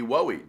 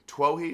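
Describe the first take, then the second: First: The name begins without a T sound. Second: The name begins with a T sound. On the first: "The T could be silent" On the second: "I think that's how you say it"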